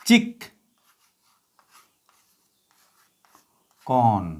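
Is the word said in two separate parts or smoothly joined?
two parts. The word is split into two separate parts.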